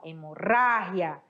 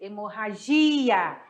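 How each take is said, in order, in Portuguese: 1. O acento cai onde o espanhol coloca. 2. O acento cai onde o português coloca. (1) "Em espanhol" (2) "Em português"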